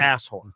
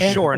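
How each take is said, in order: First: The first syllable sounds like the word 'ass'. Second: The first syllable is a weak 'uh' sound. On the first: The speaker calls it wrong. "I mispronounced it" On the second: The speaker calls it right. "It's Ashore"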